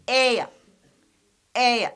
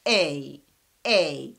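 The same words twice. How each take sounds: First: "A" as "ay-uh", with a short schwa; triphthong with schwa. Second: "A" low, just "ay" with no schwa; plain diphthong. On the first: Teacher contrasting with schwa, "A" as triphthong "ay-uh". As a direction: glide "A" on into a weak uh. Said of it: "But with schwa, we say". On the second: Teacher showing A alone, "A" as pure diphthong "ay". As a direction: stop "A" on the ee glide. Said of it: "we pronounce it as". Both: Shown as a demonstration.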